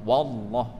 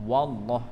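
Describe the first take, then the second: Both takes have the same delivery.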